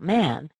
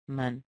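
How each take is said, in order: First: The vowel is a full, clear a sound. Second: The vowel is a weak, short schwa. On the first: The speaker calls it wrong. "not man" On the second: The speaker calls it right. "the sound gets replaced with this little uh sound"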